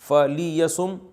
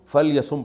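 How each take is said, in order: First: A short i vowel follows the l sound. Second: The l runs straight into the y. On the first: "लाम के जो ज़ेर है" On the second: "फल यसुम पढ़ा जाता है"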